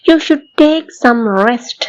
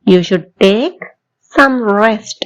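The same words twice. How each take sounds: First: Very slow, word by word; slow model sentence. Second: Said in the usual way. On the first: Shown as a demonstration. Teacher slowly modelling advice for learners to repeat. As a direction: stretch it out for the class to follow. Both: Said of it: "என் கூட சேர்ந்து சொல்லி பாக்குறீங்களா".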